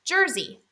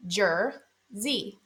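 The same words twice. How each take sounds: First: Said in the usual way. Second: "Jer-zy" in two separate beats; split into syllables. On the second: Shown as a demonstration. Teacher helping learners find the vowel, "Jer-zy" broken up. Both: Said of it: "Is it in the first syllable or the second?".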